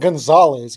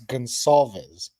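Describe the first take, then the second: First: The name is said as Gonzalez. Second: The name is said as Gonsalves. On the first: The speaker calls it wrong. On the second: The speaker calls it right.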